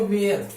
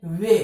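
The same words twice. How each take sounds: First: वेयर with the final R sounded; common mispronunciation. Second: वे ending on the vowel, no R; corrected, R dropped. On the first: Teacher shows what people say, वेयर with sounded R. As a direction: close वेयर on an audible R. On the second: Teacher corrects the common reading, वे with silent R. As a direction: leave the R of "where" silent in वे. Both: Shown as a demonstration. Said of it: "नहीं, होता क्या है?".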